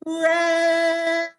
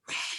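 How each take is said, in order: First: The name is shouted loudly. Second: The name is whispered softly.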